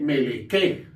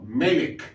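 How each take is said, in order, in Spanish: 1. La palabra termina con un sonido vocal extra. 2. La palabra termina en la consonante k. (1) "No se lee meleke" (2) "sino melek"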